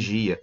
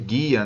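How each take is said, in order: First: It begins with a soft zh sound. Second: It begins with a hard g sound. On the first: "nem gia" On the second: "Não pode ser guia"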